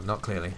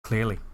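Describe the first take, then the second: First: "not" pushed, falling tune; stress on not. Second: Said in the usual way. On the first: Shown as a demonstration. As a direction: lean on "not" in "not clearly". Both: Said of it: "Well, not clearly".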